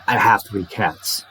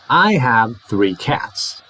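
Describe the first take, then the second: First: Quick "I have three cats", HAVE still full; rapid. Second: Slow "I have three cats" with full HAVE; unhurried, each word of "I have three cats" separate; careful full HAVE. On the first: Teacher shows no change at speed, rapid. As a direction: hurry through "I have three cats" without reducing HAVE. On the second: Teacher shows have carrying meaning, slow full form. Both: Shown as a demonstration. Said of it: "Even if I say rapidly".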